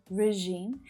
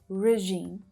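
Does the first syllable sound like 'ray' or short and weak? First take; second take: short; short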